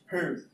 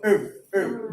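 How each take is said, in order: First: "herb" with a clear h; "herb" the British way. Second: "herb" with a silent h, like "erb"; "herb" the American way. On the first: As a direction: say "herb" with the h sounded. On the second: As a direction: drop the h in "herb". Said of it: "they tend to silence the letter H". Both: Shown as a demonstration.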